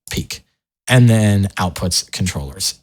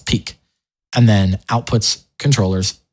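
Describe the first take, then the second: No difference in how they are said.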